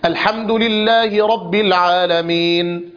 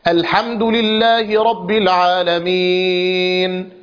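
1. يُمَدّ حرف المد الأخير حركتين. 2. يُمَدّ حرف المد الأخير أربع حركات. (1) "هذا القصر" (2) "هذا التوسط"

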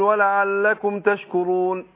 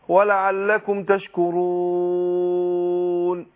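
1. يُمَدّ المد الأخير مدًّا قصيرًا. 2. يُمَدّ المد الأخير مدًّا متوسطًا. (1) "حركتين" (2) "بأربعة"

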